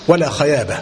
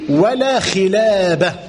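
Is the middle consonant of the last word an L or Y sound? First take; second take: Y; L. First: The last word is said with a Y sound. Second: The last word is said with an L sound. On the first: "لا يستطيع أن ينطق بحرف اللام" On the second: "فقل له بع لي ولا خلابة"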